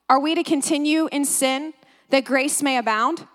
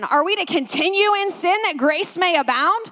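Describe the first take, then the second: First: It is read in a plain tone. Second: It is read in a sarcastic tone.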